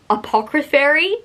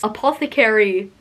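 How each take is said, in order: First: The middle of the word has a 'cr' sound. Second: The middle of the word has a 'th' sound. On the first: The speaker calls it wrong. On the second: The speaker calls it right.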